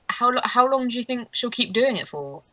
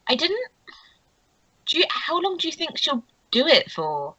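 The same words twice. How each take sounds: First: Lightly voiced curious gossip, a little higher; a hint of a character voice, less high-pitched; Lucy. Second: Put-on higher-pitched girlish gossip voice; high, inquisitive character voice; Meredith. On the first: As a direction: ask it with a slight lift in pitch. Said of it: "Lucy's kind of like". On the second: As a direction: pitch it up for a curious question. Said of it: "that was more Meredith's voice".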